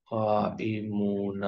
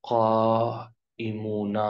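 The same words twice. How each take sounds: First: قائمون said again slowly and a touch softer; gentle second model of قائمون; softer repeat. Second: قائمون stretched slowly, ending oon held; slow teaching pronunciation of قائمون; slow model word. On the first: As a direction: quietly echo قائمون. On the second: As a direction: draw out قائمون for learners. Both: Shown as a demonstration. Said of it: "اونا کی آواز آئے گی".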